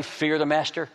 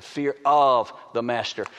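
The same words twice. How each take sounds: First: Said in the usual way. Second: "of" drawn out and set apart; slow down and lean hard on "of"; stress on OF. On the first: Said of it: "Did I say fear the master?". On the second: Shown as a demonstration. Preacher corrects the phrase for listeners, stressing "of". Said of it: "I said fear of the master".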